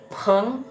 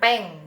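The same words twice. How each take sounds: First: The p has a strong puff of air. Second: The p has no puff of air. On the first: The speaker calls it right. "P-nya jadi dibacanya P H" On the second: The speaker calls it wrong. "dibacanya bukan peng"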